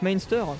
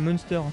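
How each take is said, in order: First: The first syllable sounds like 'main'. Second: The first syllable sounds like 'mun'. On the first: "Ça se prononce Mainster" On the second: "ils prononçaient ça Munster. ... Un peu comme les Monster Munch"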